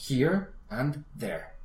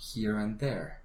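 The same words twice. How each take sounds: First: Each word is said clearly and separately. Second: The words run together in one connected flow. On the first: "primero la vas a estructurar diciendo claramente cada palabra" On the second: "después a veces te voy a motivar a repetir todo un poquito más conectado"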